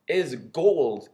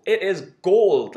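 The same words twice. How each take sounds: First: Said in the usual way. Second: "gold" said slowly, louder and drawn out; stress on gold. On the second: Real, not acted. Praising the Tim Grittani interview, slow emphatic "gold". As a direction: lean hard on "gold", slow it right down.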